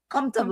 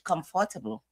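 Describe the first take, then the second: First: It is said with an American pronunciation. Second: It is said with a British pronunciation.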